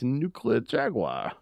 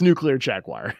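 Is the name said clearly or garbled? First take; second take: garbled; clear. First: The name is pronounced in a garbled, unclear way. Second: The name is pronounced plainly and clearly.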